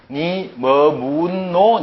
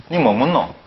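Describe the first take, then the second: First: Drawn-out, even-toned Seoul reading of "니 뭐 묻노"; exaggerated slow Seoul intonation; Seoul accent. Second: Quick Gyeongsang "니 뭐 묻노" with falling pitch; natural Gyeongsang dialect question; Gyeongsang accent. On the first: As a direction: read it very slowly as a Seoul speaker would. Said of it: "서울 사람 이건 모르면". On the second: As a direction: ask it as a Gyeongsang local would. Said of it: "다르죠?". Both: Shown as a demonstration.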